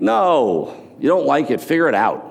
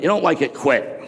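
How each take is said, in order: First: Firm retort. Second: Mocking Gary V. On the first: Retold or imitated. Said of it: "I'm like". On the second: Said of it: "this whole bit about".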